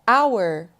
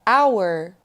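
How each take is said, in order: First: It is said with two syllables, like 'hour'. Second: It is said with two syllables, like 'hour'.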